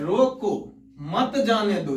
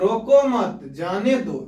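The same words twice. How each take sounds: First: There is a pause after the first word. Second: There is a pause after the second word. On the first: Stop them; do not let them go. "उसे मत जाने दो मतलब कह रहा है रोको" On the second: Do not stop them; let them go. "रोको मत मतलब नहीं रोको, जाने दो"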